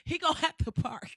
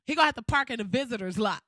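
First: Whispered. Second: The payoff, said louder and faster. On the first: To the audience, a whispered petty threat. Whispered aside, then repeated aloud. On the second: To the audience, loud petty payoff about Obama's guest. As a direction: punch it out loud and quick. Same words repeated out loud. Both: Pretend.

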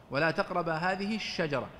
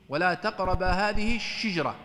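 First: Said in the usual way. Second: الشجرة said shijra, with an i after the shin, slow and clear; kasra on the shin. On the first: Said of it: "وذكر القراءات الشاذة في كلمة الشجرة". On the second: Shown as a demonstration. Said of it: "وقرئ بكسر الشين". (بكسر الشين: شِجْرة ببطء ووضوح)

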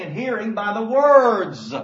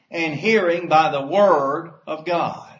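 First: "words" louder and slow with a falling tune; stress on words. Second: Said in the usual way. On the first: Shown as a demonstration. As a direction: lean on "words", plural. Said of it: "in the plural". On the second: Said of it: "maybe if we understood it better".

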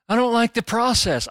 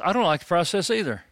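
First: High-pitched mock complaint; mock squeamish objector. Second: Said in the usual way. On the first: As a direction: imitate a fussy objector, pitched well up. Mimics the squeamish objector, then agrees.

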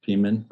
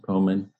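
First: Peeman with a long EE first, PEE-men; alternative pronunciation. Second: Poemen with a long OH first, POH-men; chosen pronunciation. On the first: Group leader trying the suggested spelling aloud, alternative pronunciation. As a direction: try the name as Peeman, with EE. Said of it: "with the pronunciation". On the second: Group leader settling on the saint's name, chosen pronunciation. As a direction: say Poemen with OH, not EE. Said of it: "I'm going with Poemen". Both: Shown as a demonstration.

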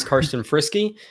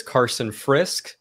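First: Guest introducing himself, saying "Karsten Frisky" with a final -ee; correct name pronunciation. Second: "Frisk" as one syllable, no ee ending; common mispronunciation. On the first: Guest gives the rundown, "Frisky" in two syllables. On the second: Guest shows host the common version, "Carson Frisk" without the endings. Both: Shown as a demonstration. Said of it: "it's commonly pronounced as".

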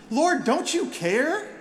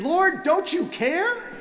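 First: High, slow, pleading accusation; exasperated plea. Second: Exasperated cry. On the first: Acted. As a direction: drag it out like a wounded complaint. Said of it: "Martha says". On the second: Retold or imitated. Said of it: "I want to scream".

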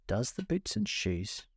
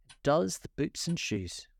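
First: Slow, puzzled repeat; wondering. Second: Slow and solemn. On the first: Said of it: "she repeated in a wondering tone". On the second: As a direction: say it gravely and slowly. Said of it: "the Griffin replied very solemnly". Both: A narrator's reading.

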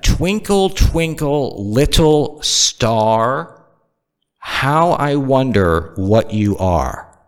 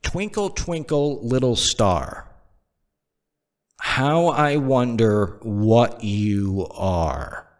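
First: Slow, pointed "Twinkle, twinkle" at full voice; emphatic repeat. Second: Soft, very slow nursery rhyme; nursery rhyme recital. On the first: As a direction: stretch "little star" out for emphasis. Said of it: "Let me repeat that". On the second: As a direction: recite it gently, stretching every phrase. Recites nursery rhyme, then repeats it. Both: Shown as a demonstration.

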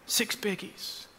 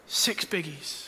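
First: Whispered repeat. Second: Soft. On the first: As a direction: whisper "Six biggies" unvoiced and much softer. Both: Shown as a demonstration. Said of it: "but in forty-three years".

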